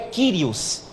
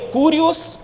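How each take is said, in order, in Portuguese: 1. A primeira vogal soa como 'ee'. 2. A primeira vogal soa como 'oo'. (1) "no grego é Kyrios. O U ali tem esse som de I" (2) "Se lê Curios"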